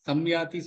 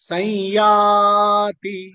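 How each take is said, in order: First: An m sound follows the first vowel. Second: No m sound follows the first vowel. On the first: The speaker calls it wrong. "சம்யாதி சொல்ல வேண்டாம்" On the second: The speaker calls it right. "ஐ use பண்ணிக்கலாம்"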